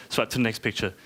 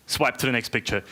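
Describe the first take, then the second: No difference in how they are said.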